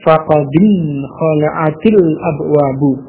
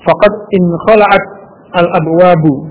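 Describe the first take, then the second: First: The t links to the next word with i. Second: The t is not linked to the next word.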